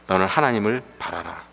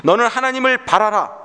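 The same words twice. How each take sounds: First: Said in the usual way. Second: High-pitched declaration of faith; preacher proclaiming a command, voice lifted high; firm declaration. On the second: Acted. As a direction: declare it to your own soul, resolutely. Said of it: "선언하는 것입니다".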